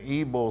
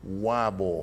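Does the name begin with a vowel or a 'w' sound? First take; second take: vowel; w sound. First: The name begins with a plain vowel sound. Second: The name begins with a 'w' sound. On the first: This is how locals say it. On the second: This is how out-of-town visitors say it.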